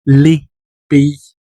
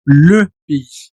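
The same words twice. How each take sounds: First: "les" said with an open "lé", then "pé-i"; "les pays" with a wide-open "les". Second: "le" with rounded closed lips, then "pé-i"; "le pays" with a tight, rounded "le". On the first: Teacher showing the open plural "les pays". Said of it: "el plural se pronuncia abierto". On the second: Teacher showing the closed singular "le pays". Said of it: "se pronuncia cerrando la boquita". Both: Shown as a demonstration.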